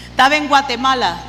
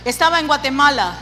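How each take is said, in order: Both takes have the same delivery.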